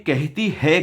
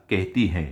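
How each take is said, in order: First: कहती है with a plain, un-nasal है at the end; stress on है. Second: कहती हैं with a nasalised हैं at the end; stress on हैं. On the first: Judge quotes the child's disrespectful wording, stress on है in कहती है. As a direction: hold up the wrong form "कहती है", ending on a clear oral है. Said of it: "जबकि तुम्हें कहना चाहिए था". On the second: Judge corrects the child to the respectful form, stress on nasal हैं. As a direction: give the corrected "कहती हैं", letting हैं hum through the nose. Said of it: "तुम्हें कहना चाहिए था". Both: Shown as a demonstration.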